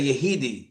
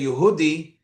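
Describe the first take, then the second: First: The middle vowel is an 'ee' sound. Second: The middle vowel is an 'oo' sound. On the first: This is how Polish Chassidim pronounce it. "they would say ... the u sound is e" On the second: This is the speaker's own community's pronunciation. "When we would say"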